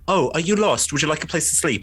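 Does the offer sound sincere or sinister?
sincere. It sounds like a sincere, kind offer.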